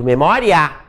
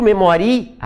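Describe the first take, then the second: First: Memória with ó stressed, ia as one glide; correct pronunciation. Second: Memoria with stress moved off the ó; wrong stress demo. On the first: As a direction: say memória with the diphthong ia. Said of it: "eu digo memória". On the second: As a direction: say memoria with the i stressed, ditongo broken. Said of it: "Eu não digo". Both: Shown as a demonstration.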